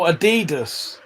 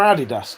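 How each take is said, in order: First: Adidas as uh-DEE-duss; Adidas with a long DEE; different Adidas pronunciation. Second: Adidas as AD-ee-dass; Adidas with a clear final DASS; usual Adidas pronunciation. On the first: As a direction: stress the middle syllable of Adidas. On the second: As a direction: stress the first syllable of Adidas. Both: Shown as a demonstration. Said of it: "What's the different pronunciation".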